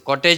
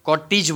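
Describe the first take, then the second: First: The second vowel sounds like 'eh'. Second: The second vowel sounds like 'ee'. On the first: The speaker calls it wrong. "કોટેજ નહીં" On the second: The speaker calls it right. "કોટીજ બોલાય છે"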